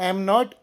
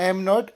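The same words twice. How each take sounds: The two takes are said the same way.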